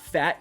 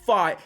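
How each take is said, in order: First: The name is said with the vowel of 'fat'. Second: The name is said with a different vowel. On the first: The speaker calls it wrong. "It is not Fat" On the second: The speaker calls it right. "say it right"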